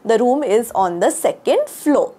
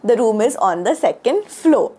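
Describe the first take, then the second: The two takes are said the same way.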